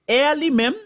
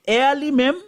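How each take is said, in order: The two takes are said the same way.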